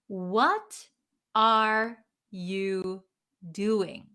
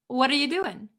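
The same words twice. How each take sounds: First: Each word is said clearly and separately. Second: The words run together without any gaps. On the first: "you might hear or say it very clearly" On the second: "we don't put spaces between each word"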